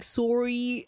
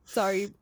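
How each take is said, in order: First: It is said in an imitated Canadian accent. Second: It is said in the speaker's own accent.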